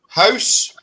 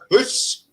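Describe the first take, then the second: First: The vowel is a gliding 'ow' sound. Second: The vowel is a long 'oo' sound. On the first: This is how the other side says it. The speaker calls it wrong. "You've got house" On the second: This is how Scots say it. The speaker calls it right. "we call it hoose. That's in H O O S E"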